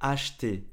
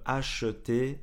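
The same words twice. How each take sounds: First: The E in the middle is dropped. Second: The E in the middle is clearly pronounced. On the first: "quand on parle vite, on ne prononce pas vraiment le E" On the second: "Au lieu de"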